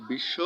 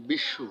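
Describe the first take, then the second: First: Said in the usual way. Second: বিশ্বু with a doubled sh and a final u sound; pronounced bishshu. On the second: Shown as a demonstration. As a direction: say বিশ্বু as bish-shu. (দ্বিত্ব শ আর শেষে উ দিয়ে বিশ্বু) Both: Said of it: "দ্বিত্ব উচ্চারণ হবে".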